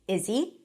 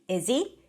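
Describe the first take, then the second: Both takes have the same delivery.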